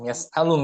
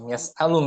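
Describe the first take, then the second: First: The middle vowel after the s is a. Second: The middle vowel after the s is a.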